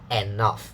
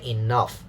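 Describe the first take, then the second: First: The first syllable begins with an 'e' vowel. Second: The first syllable begins with an 'i' vowel. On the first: The speaker calls it wrong. "not enough" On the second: The speaker calls it right. "we say enough"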